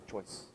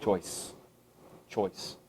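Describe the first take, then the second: First: Choice almost breathed, much softer; hushed final Choice; quiet emphasis. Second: Choice said low and soft, deliberate; weighty quiet Choice; emphasized word. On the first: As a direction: drop Choice to a hush. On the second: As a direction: let Choice land low. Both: Shown as a demonstration. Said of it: "that one word again I emphasized".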